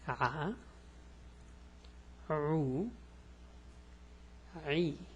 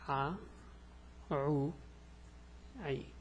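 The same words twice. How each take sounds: First: The syllables are said slowly. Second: The syllables are said quickly. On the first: "Let's go slow" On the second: "This is fast"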